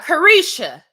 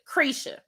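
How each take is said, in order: First: The name is said with three syllables. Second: The name is said with two syllables. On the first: The speaker calls it wrong. "not Carisha" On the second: The speaker calls it right. "Creesha, not Carisha"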